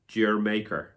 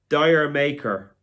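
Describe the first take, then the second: First: It is said as one word, 'Jamaica'. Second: It is said as two words, 'dire maker'. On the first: "I think that's the way a lot of people pronounce it"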